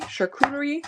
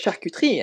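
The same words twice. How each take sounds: First: "charcuterie" said the English way, higher, rising at the end; tentative English-style "charcuterie"; English pronunciation. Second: "charcuterie" said the French way, falling at the end; French pronunciation. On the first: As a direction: anglicize "charcuterie" with all its syllables, pitched up. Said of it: "French, but are said, like, in English". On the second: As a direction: say "charcuterie" as in French, syllables run together. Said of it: "easier for me to say it in French". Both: Shown as a demonstration.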